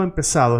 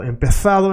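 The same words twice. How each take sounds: First: "empezado" with an S for the Z; answering take, "empezado" with plain S; Latin American pronunciation. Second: Higher "empezado" with the Z as TH; Spain pronunciation. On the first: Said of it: "Latin America, empezado". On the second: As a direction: contrast take, "empezado" with Castilian TH. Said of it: "Spain, empezado". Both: Shown as a demonstration.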